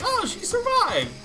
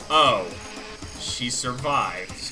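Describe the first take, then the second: First: The voice sounds happy and pleased. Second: The voice sounds disappointed and unhappy. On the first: The person is glad she is alive. "Hina's all happy" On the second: The person is sorry she is alive. "Meanwhile, Byakuya"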